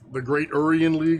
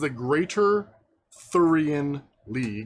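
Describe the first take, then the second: First: It sounds like 'Great Urian' with no 'th'. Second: It sounds like 'Greater Thurian' with a 'th'. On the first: The speaker calls it wrong. "they always mispronounce it somehow" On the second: The speaker calls it right. "But it is the Greater Thurian League"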